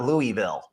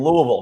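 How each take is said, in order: First: The first part is a clear two-syllable 'Looey' sound. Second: The first part is a short, swallowed 'luh' sound. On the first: The speaker calls it wrong. "It's not Louis" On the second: The speaker calls it right. "It's Lua. You got to southern it up a little bit"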